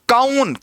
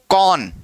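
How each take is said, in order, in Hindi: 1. स्वर 'a' और फिर 'oo' में बँटा है। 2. स्वर एक चिकनी 'au' आवाज़ है। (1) "इसको कई लोग पढ़ते हैं काउन, काउन कुछ नहीं है" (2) "क्या पढ़ना है इसको? कौन"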